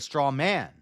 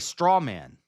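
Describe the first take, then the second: First: The stress falls on the word man. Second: The stress falls on the word straw. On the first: "emphasize the man in straw man" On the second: "I say straw man"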